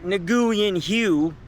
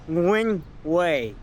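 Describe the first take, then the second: First: The second word sounds like 'hue'. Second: The second word sounds like 'way'. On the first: The speaker calls it wrong. "not Nguyen Hue" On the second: The speaker calls it right. "the way you pronounce the street is close to"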